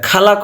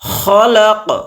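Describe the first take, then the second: First: The first sound is an aspirated k. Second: The first sound is a throaty kh. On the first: The speaker calls it wrong. "উর্দুতে আমাদের হচ্ছে কাফ হা মিলে খা হয়" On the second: The speaker calls it right. "খলাক খলাক পড়তে হবে"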